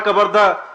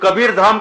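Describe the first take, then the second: First: The vowel and final m are dropped: kabardha. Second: Both words are said in full, ending in m. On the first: This is how the English garbled the name. The speaker calls it wrong. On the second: This is the original name of the place. The speaker calls it right.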